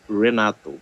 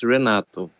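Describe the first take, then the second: First: The name is said with an English pronunciation. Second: The name is said with a Portuguese pronunciation. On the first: "but in English, it's Renato" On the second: "In Portuguese, it's Renato"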